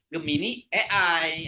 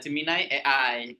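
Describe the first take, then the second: First: First word sounds Indonesian, the letters sound English. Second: Both words are pronounced with English sounds. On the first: The speaker calls it wrong. "jangan sampai Gemini A I ... kurang tepat ya karena Gemini itu bahasa Indonesia, A I itu bahasa Inggris" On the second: The speaker calls it right. "kalau versi bahasa Inggrisnya"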